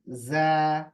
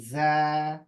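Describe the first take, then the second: The two takes are said the same way.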